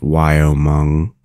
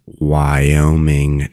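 First: "Wyoming" with the ending turned into mung; slow wrong example of "Wyoming", ending in mung; mispronounced Wyoming. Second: "Wyoming" slowly, with a clear ming ending; slow teaching take of "Wyoming", last syllable ming; correct Wyoming. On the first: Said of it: "not Wyoming". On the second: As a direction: model "Wyoming" as why-oh-ming. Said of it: "You now know how to pronounce". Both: Shown as a demonstration.

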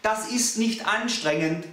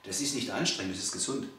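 First: Slow, higher, with "nicht" punched; slow, emphatic "nicht"; stressed denial. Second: Lower, softer "Das ist nicht anstrengend", spoken low; quiet correction. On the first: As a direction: hit "nicht" in "Das ist nicht anstrengend" hard. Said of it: "programmiert als anstrengend". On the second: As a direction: calmly set the client straight, low and soft. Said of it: "Das ist ja alles so anstrengend". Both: Shown as a demonstration.

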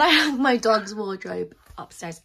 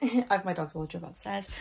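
First: Proudly projected, pitch arching then falling; emphatic announcement. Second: Said in the usual way. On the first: Real, not acted. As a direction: show it off emphatically. First take, interrupted by excuse me.

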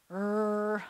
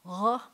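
First: Hard American "er", long and held; English R. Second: "r" made way back in the throat; a short guttural French "r". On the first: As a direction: draw out a plain English "er". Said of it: "you're not gonna say it like". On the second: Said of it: "a lot more like a French R". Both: Shown as a demonstration.

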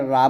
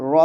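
First: "রা" with an open "a"; wrong open vowel. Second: "র" said RO, rounded; correct rounded vowel. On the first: Teacher warns pupils off this sound, open "রা". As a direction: say "রা" as RAA, not RO. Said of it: "এটা রা বলবেন না". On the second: Teacher tells pupils the right sound, rounded "র". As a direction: say "র" as a full RO, not RAA. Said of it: "র বলতে হবে". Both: Shown as a demonstration.

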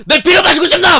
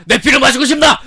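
First: High, loud cackling mock vampire; hammed-up laughing vampire; laughing vampire taunt. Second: High, loud hammed-up vampire taunt; mocking a vampire shouting at the mother; creepy vampire voice. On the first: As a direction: laugh through the taunt like a madman. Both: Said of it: "엄마한테 소리를 지르고 피를 마시고 싶냐".

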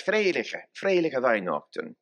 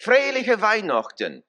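First: "Freiliche Weihnachten" in a homely German dialect, ei instead of ö. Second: "Freiliche Weihnachten" in German dialect, high and bright for the congregation to repeat; German dialect, leading. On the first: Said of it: "Or our dialect". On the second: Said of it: "I'll let you do it in the dialect". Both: Shown as a demonstration.

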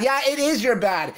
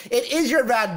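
First: "is" leaned on, falling; sarcastic emphasis landing on "is"; stress on is. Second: "your" leaned on, falling; sarcastic emphasis landing on "your"; stress on your. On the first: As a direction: press the word "is" hard. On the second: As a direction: push the word "your" as the blame. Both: Shown as a demonstration.

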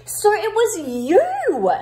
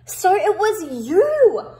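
First: You held long and loud, falling; stress on you. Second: You held long and loud, falling; stress on you again. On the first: Kipper catches the mice, loud slow stress on you. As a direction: lean hard and slow on you. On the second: Kipper confronts the mice, loud slow stress on you. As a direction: land heavily and slowly on you. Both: Shown as a demonstration. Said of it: "a lot of emphasis on you".

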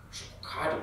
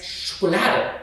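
First: Schokokade mit k statt l in der dritten Silbe; falsch ausgesprochen. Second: Schokolade korrekt mit l, Betonung auf la; richtig ausgesprochen. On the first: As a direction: verhaspelt Schokokade sagen. (Schokokade statt Schokolade) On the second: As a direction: betont korrigierend Schokolade sagen. (Schokolade mit deutlichem l) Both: Acted. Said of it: "Nein, es heißt Schokolade".

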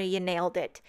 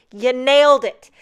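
First: Said in the usual way. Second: You nailed it, punched loud with the stress on nailed; emphatic praise. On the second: Real, not acted. Crafter cheers the font designer, repeating it louder. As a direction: repeat it louder, really meaning it.

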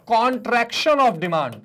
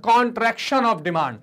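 First: Very slow, each word laid out; slow, spelled-out term. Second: Very slow, every syllable separate; slow repeated term. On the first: Teacher drilling the term for students, very slow and deliberate. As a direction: say it slowly so the class can repeat. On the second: Teacher repeating the English term for the class, very slow. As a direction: drill it slowly a second time. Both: Shown as a demonstration. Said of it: "क्या कहते हैं sir?".

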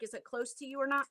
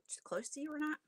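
First: Said in the usual way. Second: Whispered repeat. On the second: Real, not acted. Asks, then repeats whispered.

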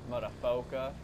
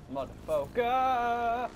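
First: Said in the usual way. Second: Motherfucker. stretched very slowly; drawn out. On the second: Shown as a demonstration. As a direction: draw out Motherfucker. syllable by syllable. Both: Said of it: "repeated differently".

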